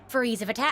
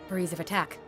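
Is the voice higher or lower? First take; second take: higher; lower. First: It is said in a higher voice. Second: It is said in a lower voice, like Taion.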